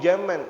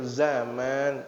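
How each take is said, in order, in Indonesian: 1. Kata ini diawali dengan bunyi j. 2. Kata ini diawali dengan bunyi z. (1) "Bahkan terkadang ustaznya ngomong zaman" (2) "zaman pakai z"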